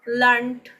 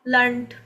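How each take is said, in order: No difference in how they are said.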